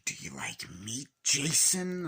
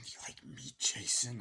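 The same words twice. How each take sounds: First: Ghostface voice. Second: Whispered menace. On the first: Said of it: "Ghostface being like". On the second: Ghostface whispering to Jason on the phone. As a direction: breathe it out in a whisper. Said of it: "re-quoting Ghostface". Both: Retold or imitated.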